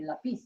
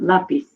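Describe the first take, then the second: First: "lápiz" wrongly stressed on the last syllable, la-PEEZ; stress on final syllable. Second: "Lápiz" correctly stressed on the first syllable, LA-peez. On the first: Teacher reading the word as written without accent, final-syllable stress on "lápiz". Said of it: "how I would say this word as it's written". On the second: Teacher showing why the accent is needed, first-syllable stress on "Lápiz". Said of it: "so I have to put an accent". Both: Shown as a demonstration.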